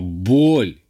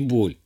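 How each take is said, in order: First: The word is said loudly and forcefully. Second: The word is said at normal loudness. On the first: Overwhelming, extreme pain. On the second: Ordinary pain.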